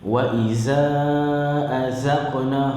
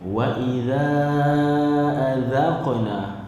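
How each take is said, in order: First: The consonant is a buzzing z sound. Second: The consonant is a voiced th sound. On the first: The speaker calls it wrong. "hak tu huruf zai" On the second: The speaker calls it right. "Lidah kita ni terkeluar main ke depan sikit"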